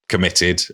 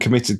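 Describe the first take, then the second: First: The word is said with a doubting, ironic tone. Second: The word is said in a plain, neutral way. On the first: The speaker doubts that the murders really happened. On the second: The murders really happened.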